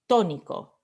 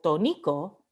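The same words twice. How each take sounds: First: The stress is on the first syllable. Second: The stress falls away from the first syllable. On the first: The speaker calls it right. "la O ... decimos tónico" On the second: The speaker calls it wrong. "We don't say ... tónico"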